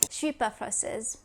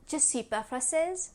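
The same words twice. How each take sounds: First: The ne is dropped and je is contracted. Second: The ne is dropped but je is said fully. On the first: The speaker is fluent. "a fluent French speaker would say" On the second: The speaker is intermediate. "An intermediate in French would say"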